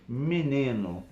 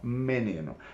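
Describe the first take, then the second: First: The first vowel sounds like 'i'. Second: The first vowel sounds like 'e'. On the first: This is how people in Rio say it. "costumamos falar também menino" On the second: This is how people outside Rio say it. "não menino"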